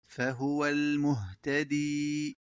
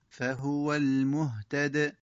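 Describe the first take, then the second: First: The last word ends in a long i vowel. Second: The last word stops short on the consonant.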